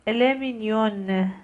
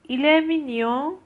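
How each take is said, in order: First: 'مینیون' with the n clearly sounded, slowly; slow model, pronounced n closing 'مینیون'; full final n. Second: 'مینیون' ending in a nasal vowel, n not pronounced; raised-pitch model, end 'مینیون' through the nose. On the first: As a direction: finish 'مینیون' on a long released n. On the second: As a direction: let the last vowel of 'مینیون' ring nasally, no n. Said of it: "این نزله". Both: Shown as a demonstration.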